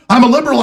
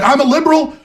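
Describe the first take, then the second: First: High mock voice with "I'm" falling hard; mocking Zuckerberg, falling. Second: High sneering voice on "I'm a liberal", stress on "liberal"; mocking Zuckerberg. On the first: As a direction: drop the second "I'm a liberal" down with smug finality. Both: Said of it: "He's like".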